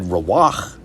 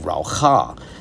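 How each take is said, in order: First: The word ends on a bare final consonant. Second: A vowel is sounded after the final consonant. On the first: "They could have said Rawach" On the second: "they vocalize the last character in this word"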